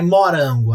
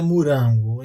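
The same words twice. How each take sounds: First: The first vowel has a Northeastern regional sound. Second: The first vowel has the speaker's local sound. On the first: This is how people in the Northeast say it. "lá é morango" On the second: This is how people here say it. "Aqui é morango"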